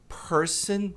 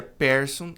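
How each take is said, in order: First: "person" slow, with a closed E. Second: "person" with an open E; common wrong way. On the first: Teacher shows the closed E to students. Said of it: "esse Ezinho fechado". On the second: Teacher imitates the usual student error. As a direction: show the usual mistake. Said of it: "Muita gente pronuncia". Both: Shown as a demonstration.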